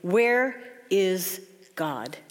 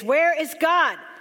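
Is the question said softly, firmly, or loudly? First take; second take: softly; loudly. First: It is said sternly, at a moderate volume. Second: It is said loudly, with a raised voice.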